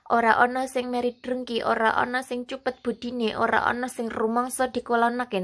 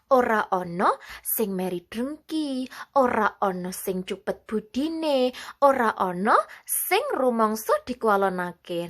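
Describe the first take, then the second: First: It is read in a flat, plain tone. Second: It is read with a varied, expressive tune.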